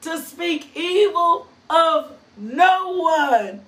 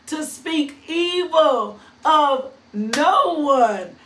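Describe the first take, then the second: First: Slow, leaning on every word of "To speak evil of no one."; emphatic preaching reread. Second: Said in the usual way. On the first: Shown as a demonstration. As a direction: preach it again with weight on "no one". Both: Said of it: "Let me say that one again".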